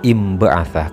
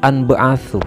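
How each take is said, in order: First: The word begins with an i sound. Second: The word begins with an a sound. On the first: The speaker calls it right. "cara bacanya yang benar imba'atha" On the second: The speaker calls it wrong. "bukan anba'athu"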